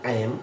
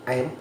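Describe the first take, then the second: The two takes are said the same way.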